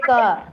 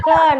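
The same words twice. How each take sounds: First: KA said blankly, without a puff of air. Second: KHA pushed out with strong aspiration; stressed KHA. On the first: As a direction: let KA drop out unstressed, unaspirated. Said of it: "should not say it blankly like". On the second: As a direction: give KHA a firm puff of air, not blank. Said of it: "You should not say it blankly". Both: Shown as a demonstration.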